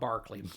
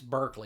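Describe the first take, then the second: First: The first syllable has an 'ar' vowel, like 'bark'. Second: The first syllable has an 'er' vowel, like 'burk'. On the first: The speaker calls it wrong. "not Barkley" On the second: The speaker calls it right. "it's Berkeley"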